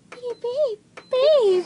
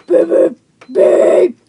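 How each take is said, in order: First: Raised pitch, light beeps; higher beeps. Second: Loud, punchy beeps. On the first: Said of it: "Or it could be like". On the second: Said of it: "Or like". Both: Shown as a demonstration.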